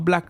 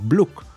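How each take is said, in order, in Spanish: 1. La vocal suena como en "cat". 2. La vocal suena como en "cup". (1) "pero no Black de negro" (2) "sino Bluck"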